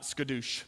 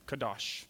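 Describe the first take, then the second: First: "skadoosh" with an s in front and an oo ending; wrong pronunciation. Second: "Kadosh" with no s and an open ah ending; correct Hebrew pronunciation. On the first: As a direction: say "skadoosh" as skuh-DOOSH, low and soft. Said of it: "Not skadoosh, like Kung Fu Panda". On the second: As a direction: say "Kadosh" as kah-DAHSH, low and soft. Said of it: "Not skadoosh". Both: Shown as a demonstration.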